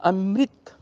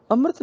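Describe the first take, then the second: First: ਅੰਮ੍ਰਿਤ said "am-rit", short i on the r; correct short i. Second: ਅੰਮ੍ਰਿਤ said "amrat", with an a before the t; common mispronunciation. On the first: Teacher corrects the reader, ਅੰਮ੍ਰਿਤ as "amrit". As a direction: sound the short i clearly in ਅੰਮ੍ਰਿਤ. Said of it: "ਸਿਆਰੀ ਰਾਰੇ ਨੂੰ ਬੋਲੀ ਜਾਏਗੀ". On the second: Teacher shows the common mistake, ਅੰਮ੍ਰਿਤ as "amrat". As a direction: say ਅੰਮ੍ਰਿਤ with the short i lost. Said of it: "ਅੰਮ੍ਰਿਤ ਨਹੀਂ, ਅੰਮ੍ਰਿਤ". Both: Shown as a demonstration.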